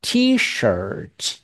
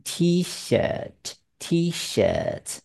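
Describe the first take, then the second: First: "T-shirt" with a heavy curled R in "shirt"; American "T-shirt", R fully sounded; American strong R. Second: Slow "T-shirt" twice, "shirt" without any R; British "T-shirt", tongue left flat in "shirt". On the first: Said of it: "美国人的卷舌音是很重的". (美式 T-shirt，重重卷舌) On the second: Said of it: "英国人念T-shirt". (英式 T-shirt，不卷舌) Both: Shown as a demonstration.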